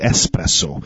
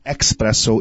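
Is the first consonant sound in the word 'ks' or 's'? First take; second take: s; ks. First: The word begins with an 'es' sound. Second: The word begins with an 'ex' sound. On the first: The speaker calls it right. "It is espresso" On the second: The speaker calls it wrong. "there is no X in espresso. It's not espresso"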